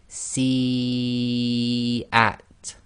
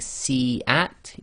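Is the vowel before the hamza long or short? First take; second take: long; short. First: The vowel before the hamza is drawn out long. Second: The vowel before the hamza is held short. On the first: The speaker calls it right. "you'd recite si at ... for long" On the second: The speaker calls it wrong. "instead of saying si at"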